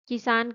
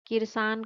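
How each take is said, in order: First: The word has no extra r sound. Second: An extra r sound is added mid-word. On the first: The speaker calls it right. "किसान के स्थान पर" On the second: The speaker calls it wrong. "जब शब्द में किसी अन्य अक्षर को मिलाकर प्रयोग किया जाए"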